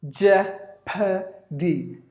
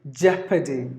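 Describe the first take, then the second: First: "Jeopardy" very slowly in three separate beats; syllable by syllable. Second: Said in the usual way. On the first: Shown as a demonstration. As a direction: break "Jeopardy" into jep, uh, dee. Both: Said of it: "There are three syllables in this word".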